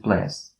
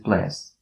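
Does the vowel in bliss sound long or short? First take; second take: short; short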